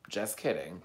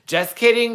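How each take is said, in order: First: Low, soft aside; settled retraction. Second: High, loud sing-out; playful retraction. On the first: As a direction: drop down softly after the joke. Settles down after the loud retraction. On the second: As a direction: jump up high and loud to take back a joke. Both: Real, not acted.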